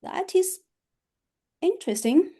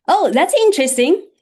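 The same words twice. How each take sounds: First: Flat, unimpressed take; changed tone. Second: Higher and louder, surprised and inviting; raised tone. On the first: Teacher contrasting tone, dismissive and unimpressed. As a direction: say it like you don't care. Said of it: "totally change my tone". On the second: Teacher demoing upbeat tone, surprised and excited. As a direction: sound delighted and curious. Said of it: "I can raise my tone". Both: Shown as a demonstration.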